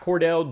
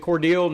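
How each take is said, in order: First: The last syllable sounds like 'dell'. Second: The last syllable sounds like 'deal'. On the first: The speaker calls it wrong. "not Cordell" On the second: The speaker calls it right. "Cordele, not Cordell"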